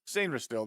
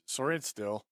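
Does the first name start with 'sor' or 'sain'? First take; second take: sain; sor. First: The first name begins with a 'sain' sound. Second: The first name begins with a 'sor' sound. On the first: The speaker calls it right. "It's Sainrin still" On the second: The speaker calls it wrong. "Sorry, I said Sorin still"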